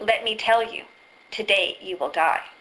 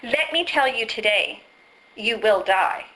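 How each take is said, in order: First: The pause comes right before the word today. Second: The pause comes right after the word today. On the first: The dying happens today. "I've just changed the pause" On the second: The telling happens today. "I've just changed the pause"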